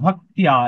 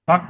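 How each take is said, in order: First: The word ends in a 'tya' sound. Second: The word ends in a plain 'ta' sound. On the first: The speaker calls it right. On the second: The speaker calls it wrong. "ভক্তা না"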